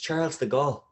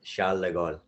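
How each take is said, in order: First: The name is said with an Irish accent. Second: The name is said with a French accent. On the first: Someone else corrected it the local way. "Typical Irish, you know, saying it" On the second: The speaker had picked up French habits. "I had a little bit of a French accent"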